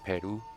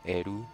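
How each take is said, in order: First: The word begins with a P sound. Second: The word begins without a P sound.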